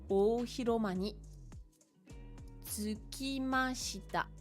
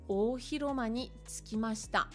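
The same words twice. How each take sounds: First: The phrase is read slowly and deliberately. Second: The phrase is read at a quicker pace. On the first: "je vais aller doucement" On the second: "Je relis un petit peu plus vite"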